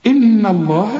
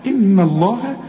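First: إن الله with a heavy, thick ن; إن الله, the ن said full and heavy; mock wrong heavy nun. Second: إن الله with a light, thin ن; إن الله, soften the ن to a thin sound; correct light nun. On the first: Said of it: "رقق ال-، النون". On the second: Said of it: "ما تقولش إن الله". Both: Shown as a demonstration.

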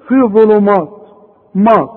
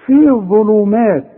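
First: ظلمات with a thick, dark "maw"; wrong heavy meem. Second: ظلمات with a thin, light "maa"; careful model reading of ظلمات, meem not thickened. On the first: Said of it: "يا راجل مات ايه بس؟". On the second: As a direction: draw out ظلمات slowly, keeping the meem light. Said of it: "اهي الميم دي اللي انا عمال اقول لك عليها". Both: Shown as a demonstration.

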